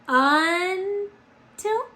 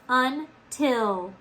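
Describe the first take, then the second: First: The stress is on the first syllable. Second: The stress is on the second syllable. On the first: The speaker calls it wrong. "Do we say until? No" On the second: The speaker calls it right. "we got to put the accent on the second syllable"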